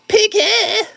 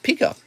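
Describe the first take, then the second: First: It is said in a mocking, exaggerated voice. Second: It is said in his own plain voice.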